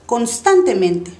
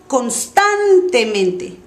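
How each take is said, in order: First: The word is said at natural everyday speed. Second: The word is drawn out and over-articulated. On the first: "y después normal" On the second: "voy a exagerar primero"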